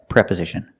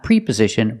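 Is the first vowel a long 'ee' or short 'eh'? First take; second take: short eh; long ee. First: The first vowel is a short 'eh' sound. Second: The first vowel is a long 'ee' sound. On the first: The speaker calls it right. "We have to use the short E sound like eggs" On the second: The speaker calls it wrong. "We cannot use the long E and say pre. Preposition is not correct"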